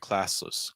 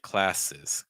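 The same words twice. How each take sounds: First: The final syllable has a vague, reduced schwa vowel. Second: The final syllable has a sharp short I vowel. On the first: The speaker calls it wrong. "I feel like I'm hearing classes" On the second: The speaker calls it right. "have more of a short I sound at the end"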